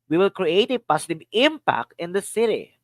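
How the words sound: The stress is on the word "impact".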